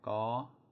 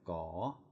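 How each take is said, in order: First: The pitch stays high on the syllable. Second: The pitch rises on the syllable. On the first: "is going to be high tone" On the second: "is a rising tone"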